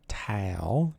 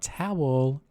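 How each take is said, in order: First: It is said in the speaker's own regional accent. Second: It is said in a standard, non-regional accent. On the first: The speaker calls it right. "I'm going to say it in my accent" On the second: The speaker calls it wrong. "not towel"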